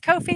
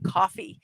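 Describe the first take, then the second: First: The name is said as 'Kofi'. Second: The name is said like 'coffee'. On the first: "I've been pronouncing this Kofi" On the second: "I'm going to now change it to coffee"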